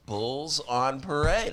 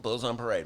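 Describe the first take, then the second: First: [name] drawn out slowly, rising at the end on Parade; slow punchline delivery. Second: Said in the usual way. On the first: Shown as a demonstration. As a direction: land the pun [name] slowly and deliberately. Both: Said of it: "Get it?".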